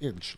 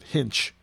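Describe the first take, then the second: First: The word starts with a vowel sound. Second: The word starts with an h sound. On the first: "like the word inch" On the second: "one of my relatives pronounced it hinch. just added the H"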